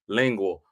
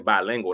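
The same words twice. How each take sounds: First: There is a pause between bi and lingual. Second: The word is said smoothly without any pause. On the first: The person is attracted to more than one gender. The speaker calls it wrong. "I had took a breath between bi and lingual" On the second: The person speaks two languages. The speaker calls it right. "I wanted to say bilingual"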